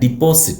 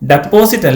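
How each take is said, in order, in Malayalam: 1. ആദ്യ അക്ഷരത്തിൽ ഹ്രസ്വ 'i' സ്വരമുണ്ട്. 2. ആദ്യ അക്ഷരത്തിൽ തുറന്ന 'e' സ്വരമുണ്ട്. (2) "ഐ ഹാവ് ഡെപ്പോസിറ്റ് അല്ല"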